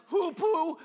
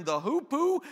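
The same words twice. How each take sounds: First: "hoopoo" called out loud and slow, both syllables like "hoo-poo"; pronunciation demo. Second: "hoopoe" read out high and loud from the list. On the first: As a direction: shout "hoopoo" slowly, as "hoo" plus "poo". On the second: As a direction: say "hoopoe" as it appears in the reading, raised. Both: Shown as a demonstration. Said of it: "That's pronounced hoopoo".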